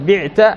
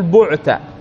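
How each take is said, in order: First: The first vowel is an 'i' sound. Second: The first vowel is a 'u' sound. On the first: You sold something. The speaker calls it wrong. "بدل بعت في المبني المجهول" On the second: You were sold. The speaker calls it right. "نقول بعت"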